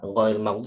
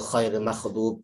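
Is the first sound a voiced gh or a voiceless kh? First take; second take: gh; kh. First: The first sound is a voiced throaty gh. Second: The first sound is a voiceless throaty kh. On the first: The speaker calls it right. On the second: The speaker calls it wrong.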